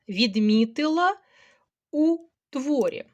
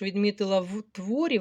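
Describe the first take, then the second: First: The preposition is the vowel 'u'. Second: The preposition is the consonant 'v'. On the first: The speaker calls it right. "тому я використовую лише прийменник у" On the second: The speaker calls it wrong. "ви напружуєтеся, і мова наша не така мелодійна"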